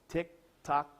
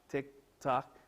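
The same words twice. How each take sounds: The two takes are said the same way.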